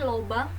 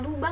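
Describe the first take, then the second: First: The first vowel is an 'o' sound. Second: The first vowel is a 'u' sound. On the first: The speaker calls it wrong. "yang diucapkan menjadi lobang" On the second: The speaker calls it right. "pada kata lubang"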